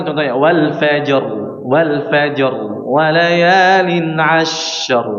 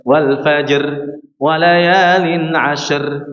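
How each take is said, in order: First: Slow chant with a heavy ra on "ashr"; teacher modeling proper recitation; correct thick ra. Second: "ashr" drawn out slow with the voice rising on the ra; mock the imam's usual mistake; wrong recitation. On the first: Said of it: "Ra-nya dibaca tebal". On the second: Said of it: "jangan dibaca seperti ini". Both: Shown as a demonstration.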